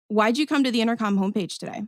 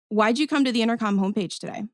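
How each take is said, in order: First: The tone is neutral and flat. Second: The tone is neutral and flat.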